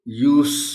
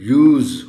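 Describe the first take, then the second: First: The word ends with an 's' sound. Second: The word ends with a 'z' sound. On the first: The word is a noun. "सीन की आवाज आएगी" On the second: The word is a verb. "अगर verb है तो फिर यूज होगा"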